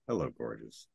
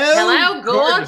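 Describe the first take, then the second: First: It is said in a quiet, understated way. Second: It is said in a big, overdone way.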